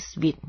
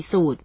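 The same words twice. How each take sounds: First: Sweet with a "sw" glide and ee vowel; correct reading. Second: สูตร as "soot", long oo and no w; wrong reading. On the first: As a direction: say suite just like sweet. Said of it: "คำอ่านออกเสียงที่ถูกต้องก็คือ". (อ่าน suite ว่า สวีท เหมือน sweet) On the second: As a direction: misread suite as สูตร, "soot". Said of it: "ไม่ได้ออกเสียงคำว่าสูตร". (อ่าน suite ผิดเป็น สูตร) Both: Shown as a demonstration.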